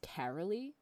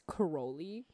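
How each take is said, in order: First: The name is said the Americanized way. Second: The name is said the Hungarian way.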